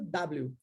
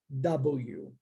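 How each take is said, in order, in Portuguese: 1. O nome da letra tem pronúncia do português brasileiro. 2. O nome da letra tem pronúncia em inglês. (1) "a gente meio que abrasileirou a pronúncia e ficou W" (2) "Mas em inglês nós dizemos W"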